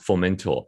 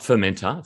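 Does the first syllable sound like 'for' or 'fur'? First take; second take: for; fur. First: The first syllable sounds like 'for'. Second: The first syllable sounds like 'fur'. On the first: The speaker calls it right. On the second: The speaker calls it wrong. "Not Fermenter"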